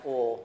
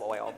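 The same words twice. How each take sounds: First: It is said with a Southern drawl. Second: It is said plainly, without a drawl. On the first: "you know it's pronounced oil" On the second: "instead of oil"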